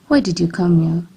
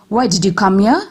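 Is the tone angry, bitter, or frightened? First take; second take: bitter; angry. First: The line is spoken in a bitter tone. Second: The line is spoken in an angry tone. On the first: "This shows a bitter tone of voice" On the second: "This shows an angry tone of voice"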